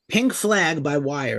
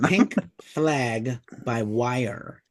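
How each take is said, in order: First: The phrase is said quickly. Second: The phrase is said slowly.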